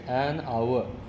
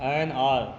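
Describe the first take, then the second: First: The word glides through 'a-u-a' vowels. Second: The word has a single long 'ar' vowel. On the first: The speaker calls it right. "Correct, the word is" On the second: The speaker calls it wrong. "जो लोग बोलते ना है आर, एन आर, ठीक है, गलत है"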